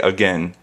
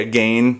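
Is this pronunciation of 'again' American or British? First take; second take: American; British. First: It is said with an American pronunciation. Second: It is said with a British pronunciation. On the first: "so I say again" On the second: "I don't say again because I'm not British"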